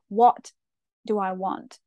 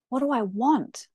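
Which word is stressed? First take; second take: what; want. First: The word 'what' is stressed. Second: The word 'want' is stressed. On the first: "sometimes with emphasis on the what" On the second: "or the want"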